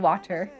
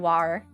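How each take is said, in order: First: The middle consonant sounds like a D. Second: The middle T sound is dropped. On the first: This is the speaker's own way. "I say water ... more like with a D" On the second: This is not how the speaker says it. "I don't say water"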